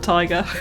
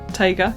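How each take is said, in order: First: It sounds just like the word tiger. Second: It ends in a clear 'gah' sound. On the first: The speaker calls it wrong. "not tiger" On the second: The speaker calls it right. "yes, that is it"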